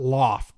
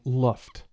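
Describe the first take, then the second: First: The vowel sounds like the o in loft. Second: The vowel sounds like the u in luft. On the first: The speaker calls it wrong. "It's not Loft" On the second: The speaker calls it right. "it's pronounced L- Luft"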